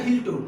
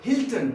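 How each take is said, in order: First: हिल्टो ending in an open o, "hil-to"; wrong pronunciation. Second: हिल्टन as "HIL-tun"; correct pronunciation. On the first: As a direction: say हिल्टो with no final n. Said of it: "it's not a हिल्टो". (हिल्टो, आखिर में "ओ" वाला गलत उच्चारण) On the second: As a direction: end हिल्टन on a short vowel plus n. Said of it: "ये क्या है?". (हिल्टन, आखिर में "टन" वाला सही उच्चारण) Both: Shown as a demonstration.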